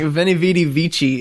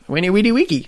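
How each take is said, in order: First: The first word begins with a V sound. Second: The first word begins with a W sound. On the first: This is how people commonly say it. The speaker calls it wrong. "People always like" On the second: This is the original Latin pronunciation. The speaker calls it right. "V's are pronounced with a W"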